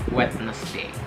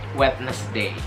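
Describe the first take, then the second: No difference in how they are said.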